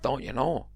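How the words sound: It is said in an imitated, put-on voice.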